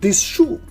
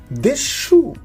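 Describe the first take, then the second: First: The end of 'this' is a clear s. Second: The end of 'this' sounds like sh. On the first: The speaker calls it wrong. "not this shoe" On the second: The speaker calls it right. "So we will pronounce as this shoe in connected speech"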